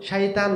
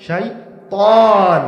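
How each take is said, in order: First: Said in the usual way. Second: শয়তান very slow with a heavy, thick ত at the end; slow weighty শয়তান with an emphatic ত; heavy ta demo. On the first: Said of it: "তা কিন্তু হচ্ছে দুর্বল অক্ষর". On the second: Shown as a demonstration. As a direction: drag out শয়তান and land hard on a heavy ত. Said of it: "এর আওয়াজটা ভারী হয়ে বের হয়ে আসে".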